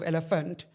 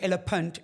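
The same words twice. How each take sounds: First: The word is pronounced in the standard way. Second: The word is pronounced in a garbled, childlike way. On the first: This is the intended word. The speaker calls it right. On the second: This was the childhood speech error. The speaker calls it wrong.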